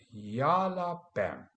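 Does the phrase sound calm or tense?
calm. It is said calmly in a relaxed, normal voice. The speaker calls it right. "but yalla bam"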